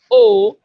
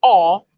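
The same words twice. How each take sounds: First: O as a rounded 'oh', drawn out; closed O sound. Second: O as an open 'aw'; open O sound. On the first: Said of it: "like a lot of people would say". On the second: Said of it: "I have the sound". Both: Shown as a demonstration.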